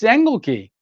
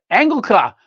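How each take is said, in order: First: "Engelke" with the last syllable said as "kee"; the speaker correcting how his name is said; own pronunciation. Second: "Engelka" with the last syllable said as a clear "kah"; "Engelka" the way the German man says it; German pronunciation. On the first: Shown as a demonstration. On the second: Retold or imitated. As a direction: end "Engelka" on an open "ka". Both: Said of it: "No, i-, it's Engelke".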